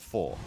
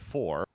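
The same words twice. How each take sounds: First: The final R sound is dropped. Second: The final R sound is clearly pronounced.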